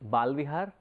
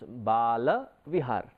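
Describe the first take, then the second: First: The first part is said as short 'Bal'. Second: The first part is said as two-syllable 'Bala'. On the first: It refers to a place for hair. The speaker calls it wrong. "Sometimes we tend to mispronounce it and we say it is Balvihar" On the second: It refers to a platform for kids. The speaker calls it right. "it has to be pronounced right. When we say it is a platform for kids, then it becomes Bala Vihar"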